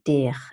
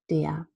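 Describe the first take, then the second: First: The word ends with a pronounced r consonant. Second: The word ends with a vowel and deep schwa. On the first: The speaker calls it wrong. "Nobody says der" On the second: The speaker calls it right. "the vowel plus deep schwa"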